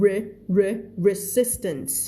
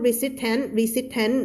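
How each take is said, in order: First: "resistance" said slowly, built up from "re", ending on an "-ns" sound; slow, careful "re re resistance"; correct pronunciation. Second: "resistant" said the wrong way, with a T sound at the end; mock mistake "resistant"; wrong pronunciation. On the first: Teacher corrects the word for her students, slow and careful "resistance". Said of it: "ตัว S ตัวอันนี้ไม่ออกนะ". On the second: Teacher shows students the wrong way to say it, "resistant". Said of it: "ไม่พูด resistant ตัว S ตัวอันนี้ไม่ออกนะ". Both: Shown as a demonstration.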